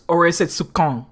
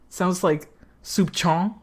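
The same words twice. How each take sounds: First: "soup con" with a hard K. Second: "soup chon" sounded out slowly, ch like in chop. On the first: Players puzzling over the French word, trying a hard K. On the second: Players puzzling over the French word, slow sounding-out. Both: Shown as a demonstration.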